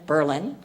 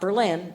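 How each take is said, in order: First: It is said the local Wisconsin way. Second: It is said the usual, non-Wisconsin way. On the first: The speaker calls it right. "the way people from Wisconsin pronounce it" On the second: The speaker calls it wrong. "Not Berlin"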